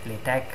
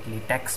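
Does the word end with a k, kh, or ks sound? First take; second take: k; ks. First: The word ends in a plain k sound. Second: The word ends in a ks sound. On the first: "If you don't know how to pronounce that, you can call it LaTeX" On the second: "that would be really wrong because it's not LaTeX, the rubber"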